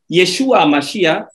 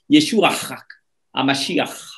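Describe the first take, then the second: First: The final sound is plain, without throat friction. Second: The final sound is a breathy throat guttural. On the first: The speaker calls it wrong. "ce n'est pas correct, ce n'est pas normal" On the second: The speaker calls it right. "Il faut donc que cette gutturalisation soit faite"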